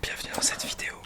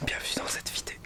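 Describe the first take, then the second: First: Soft ASMR whisper; right in your ear. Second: Close-mic whisper; right in your ear. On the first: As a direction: breathe it into the mic. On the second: ASMR whispered intro. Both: Pretend.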